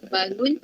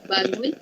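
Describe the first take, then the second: No difference in how they are said.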